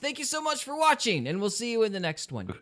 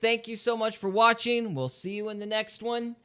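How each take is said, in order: First: It is said with more emphatic energy. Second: It is said in a flat, canned way.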